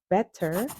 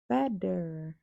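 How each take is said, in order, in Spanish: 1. La consonante del medio es una t nítida. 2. La consonante del medio es una d suave. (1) "no dirías better" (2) "el sonido de la T suena como una D suave"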